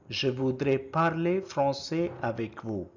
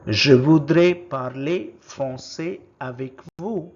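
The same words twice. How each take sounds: First: Said in the usual way. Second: First take, projected clearly for the class; loud model word. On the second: Shown as a demonstration. Teacher modelling a French word for learners, loud and clear. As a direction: call out the French word loudly. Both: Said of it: "How do you say it in French".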